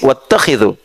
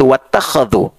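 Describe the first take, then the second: First: The vowel after kh is an i sound. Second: The vowel after kh is an a sound. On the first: You should take it as a place of prayer. "Asim wattakhidhu" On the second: They took it as a place of prayer. "di riwayat Warsh dan uh, Qalun dari Nafi' itu wattakhadhu"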